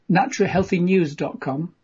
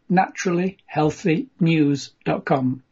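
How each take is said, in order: First: It is said at normal quick pace. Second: It is said slowly and deliberately.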